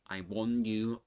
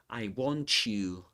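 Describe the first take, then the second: First: The T in 'want' is dropped. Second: The T joins 'you' to make 'ch'. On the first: "doesn't say I want you" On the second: "he doesn't drop the final T in the in the word want, but he combines it with the next um, sound"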